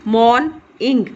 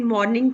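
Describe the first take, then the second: First: "मॉर्निंग" in two separate beats, morn and ing; slow, counted-out "मॉर्निंग"; split into syllables. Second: Said in the usual way. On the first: Shown as a demonstration. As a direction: break "मॉर्निंग" after the first syllable. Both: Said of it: "टू syllables हैं".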